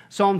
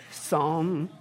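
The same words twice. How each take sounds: First: Psalm with the L sounded, sahlm; phonics spelling. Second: Psalm said sahm, silent P and L; correct pronunciation. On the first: To phonics fans, Psalm said with the L. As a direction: say Psalm pronouncing every letter, L included. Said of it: "for those of you hooked on phonics". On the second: Answering how to say it, Psalm as sahm. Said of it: "how do you say that?". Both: Shown as a demonstration.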